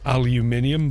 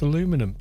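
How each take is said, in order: First: It is said with an extra syllable before the ending. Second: It is said without the extra syllable before the ending. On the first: This is the form forced by the scientific community. "in European and British English, it's um, aluminium" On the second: This is the name the discoverer gave the metal. "it's aluminum. That's that's what the guy who discovered it called it"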